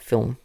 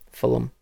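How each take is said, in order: First: It is said in a neutral, non-Australian accent. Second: It is said in a broad Australian accent. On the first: "not film" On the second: "you'd be Aussieing it up and saying Fulham"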